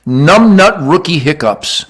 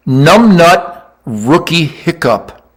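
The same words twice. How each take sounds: First: "Numbnut Rookie Hiccups" said again a little slower than usual; repeated title. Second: "Numbnut Rookie Hiccup" spelled out very slowly, word by word; announced title. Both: Shown as a demonstration. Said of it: "It's called".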